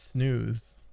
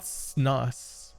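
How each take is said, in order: First: The word has a long vowel, like 'snooze'. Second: The word has a short vowel, like 'snuss'. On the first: The speaker calls it right. "It's snooze. That's how it's pronounced" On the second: The speaker calls it wrong. "It's not snus"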